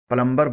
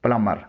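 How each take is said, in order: First: प्लम्बर with the b sounded; wrong-way प्लम्बर, audible b after m; common mispronunciation. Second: प्लम्बर said as "plummer"; silent b. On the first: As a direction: say प्लम्बर as "plum-ber". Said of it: "जो गलत है।". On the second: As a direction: say प्लम्बर without any b. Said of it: "इसमें बी खामोश है।". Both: Shown as a demonstration.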